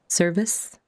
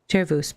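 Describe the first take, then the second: First: It sounds like the English word service. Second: It is said with a Latin pronunciation. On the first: "A lot of folks in game pronounce them service, as if they're providing a service" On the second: "that's the Latin pronunciation that you would use in singing"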